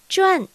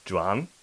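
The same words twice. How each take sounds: First: 转 with a falling fourth tone. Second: ジュアン in a low, dipping third tone. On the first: 四声で発音する場合は. (转を四声で、高から低へ下げて) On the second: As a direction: let ジュアン dip low, then rise. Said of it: "三声でジュアンと発音する場合は". (ジュアンを三声で、低く抑えて) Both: Shown as a demonstration.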